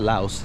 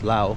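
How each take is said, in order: First: The word ends with an s sound. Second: The word ends without an s sound. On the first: The speaker calls it wrong. "Not Laos" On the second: The speaker calls it right. "I gotta get that right"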